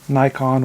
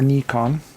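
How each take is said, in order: First: The name is said the usual English way. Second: The name is said the Japanese way.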